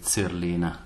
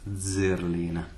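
First: The first z is an unvoiced ts sound. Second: The first z is a voiced dz sound. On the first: The speaker calls it wrong. "in the German country they tend to say Zerlina" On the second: The speaker calls it right. "Always voiced"

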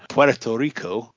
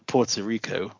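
First: It is said in an imitated, mocking pronunciation. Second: It is said in the speaker's normal pronunciation.

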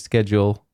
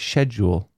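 First: The word has an American pronunciation. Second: The word has a British pronunciation. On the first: "schedule is the American pronunciation" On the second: "British people say schedule"

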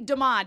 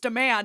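First: The name is pronounced the French way. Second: The name is pronounced like the English word. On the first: The speaker calls it right. "It's French. It's supposed to be demand, as in to ask" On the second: The speaker calls it wrong. "it drives me crazy that in the Viz dub, they're like"

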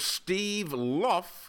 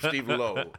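First: The surname ends in an f sound. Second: The surname ends in a long o vowel. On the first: "I believe is how he pronounces it" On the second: "that's how he pronounces his name"

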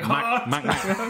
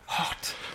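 First: The word is said loudly and forcefully. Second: The word is said softly and mildly. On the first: The speaker wants it very spicy. "if you want it hot, you'd be like" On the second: The speaker wants it only a little spicy. "you want it like kind of... you just go like"

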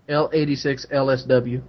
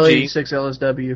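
First: It is said more slowly. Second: It is said at a normal speed.

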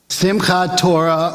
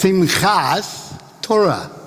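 First: The first word ends with a t sound. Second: The first word ends with an s sound.

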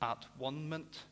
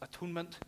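First: The middle sounds like 'one', split into parts. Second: The middle sounds like 'tone', said as one word. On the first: "He always pronounced it at one-ment" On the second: "never pronounced the word atonement as atonement"

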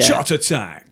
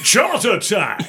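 First: It is said in an ordinary speaking voice. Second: It is said in a booming announcer voice.

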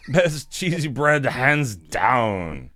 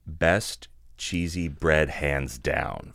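First: It is read in a put-on character voice. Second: It is read in his ordinary reading voice.

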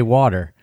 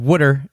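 First: It is said with a standard accent. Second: It is said with a Philadelphia accent. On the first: This is how someone less Philly says it. "I say water" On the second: This is how a local Philly speaker says it. "she says water"

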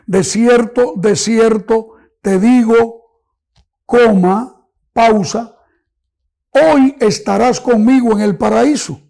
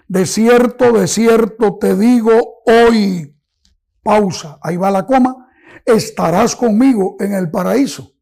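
First: There is a pause right after digo. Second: There is a pause right after hoy. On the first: Paradise is promised for that very day. "poner una coma en este momento" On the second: The promise is made today, for a later time. "pausa, ahí va la coma"

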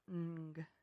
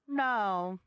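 First: It is a bare nasal sound with no vowel. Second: It is said with a vowel, like 'no'. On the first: "it'd be like ng part of it" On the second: "she was just saying"

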